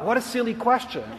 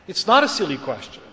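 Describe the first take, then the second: First: Higher, softer voiced inner scoff; dismissive thought. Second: "not" stressed as a measured correction; reconsidering, stress on NOT. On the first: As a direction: think it to yourself, lightly dismissive. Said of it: "I thought". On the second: Retold or imitated. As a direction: correct yourself, leaning on "not". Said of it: "But then I thought again".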